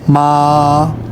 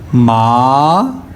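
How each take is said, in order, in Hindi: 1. पिच ऊँची और सपाट रहती है। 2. पिच नीचे से ऊँची होती है। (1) "मैंने इसको प्रोनाउंस करना है फर्स्ट टोन में" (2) "ये देखें राइजिंग टोन है"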